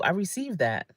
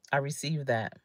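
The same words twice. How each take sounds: First: Said in the usual way. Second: Softer, lower echo of the phrase; softer repeat. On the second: Shown as a demonstration. Accepting a compliment, softly to herself. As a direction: let it sink in, quietly. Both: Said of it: "I say".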